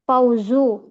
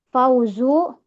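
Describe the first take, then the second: The two takes are said the same way.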